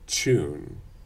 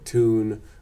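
First: It starts with a 'ch' sound. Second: It starts with a plain 't', no 'y'. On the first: "which is similar to that TR thing" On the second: "yod dropping"

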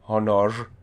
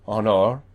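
First: The word ends in an R sound. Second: The word ends in an R sound.

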